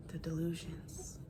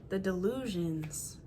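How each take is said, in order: First: Soft breathy whisper. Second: Said in the usual way. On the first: Shown as a demonstration. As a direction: whisper it in disbelief. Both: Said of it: "repeated, then whispered".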